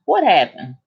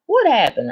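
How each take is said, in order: First: Said in the usual way. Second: Hike "What happened?" way up for suspense; dramatic high repeat. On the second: Shown as a demonstration. Telling friends about the driver, repeating "What happened?" dramatically high. Rhetorical build-up before story reveal.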